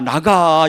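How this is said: It is said in a weak, pleading tone.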